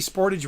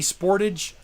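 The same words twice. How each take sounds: First: It is said the American way. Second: It is said the Canadian way.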